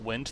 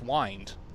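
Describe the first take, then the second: First: The vowel is short, rhyming with pinned. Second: The vowel is long, rhyming with kind. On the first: It means moving air. The speaker calls it wrong. "That's not wind" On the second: It means to turn or coil. The speaker calls it right. "that's wind"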